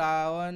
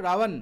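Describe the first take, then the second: First: Ravan drawn out slowly, lips not closing on ব; slow pronunciation. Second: Said in the usual way. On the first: Shown as a demonstration. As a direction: say Ravan slowly, letting the ব glide without the lips touching. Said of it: "slowly উচ্চারণ". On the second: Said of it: "Ravan উচ্চারণ করো".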